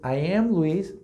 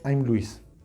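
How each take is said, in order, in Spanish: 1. Ambas palabras 'I am' se dicen completas. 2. 'I am' se reduce a una sola sílaba.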